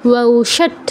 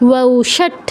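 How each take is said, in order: No difference in how they are said.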